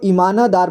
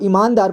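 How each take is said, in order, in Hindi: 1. 'न' की ध्वनि स्वर के साथ पूरी तरह बोली गई है। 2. 'न' की ध्वनि बिना स्वर के छोटी कटी हुई बोली गई है। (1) "पूरी तरह से न का उच्चारण किया उस बार मैं इसको ईमानदार पढ़ा" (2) "जब यहाँ पूरी तरह से उच्चारण नहीं किया तब मैंने इसको ईमानदार पढ़ा"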